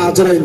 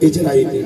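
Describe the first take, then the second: First: The name begins with an 'a' vowel. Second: The name begins with an 'i' vowel. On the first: The speaker calls it wrong. "জাবার দিয়ে বলবে না" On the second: The speaker calls it right. "জের দিয়ে বলবে"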